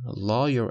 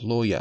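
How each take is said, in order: First: The word is said in an American accent. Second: The word is said in a British accent. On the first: "lawyer American" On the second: "lawyer British"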